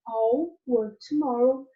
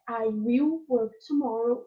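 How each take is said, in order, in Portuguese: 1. As palavras 'I will' são contraídas em 'I'll'. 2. As palavras 'I will' são ditas por extenso. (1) "o outro é I'll work tomorrow" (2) "Tem uma diferença de pronúncia. Um é I will work tomorrow"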